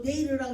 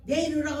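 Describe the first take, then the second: First: Divine command. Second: Louder command. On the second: Repeated divine command, louder. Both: Retold or imitated.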